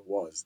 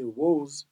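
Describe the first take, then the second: First: "was" said wahz, open a; regional variant pronunciation. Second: "was" said wohz, long o; variant pronunciation. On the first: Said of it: "then some people say was". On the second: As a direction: round "was" into "woze". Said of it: "some people say was". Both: Shown as a demonstration.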